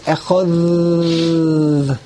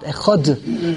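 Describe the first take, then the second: First: The word ends with a soft th sound. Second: The word ends with a hard d sound. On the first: The speaker calls it right. "The real way it's echad. It's a th because there is no dot in the dalet" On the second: The speaker calls it wrong. "We read the dalet as if there's a dot"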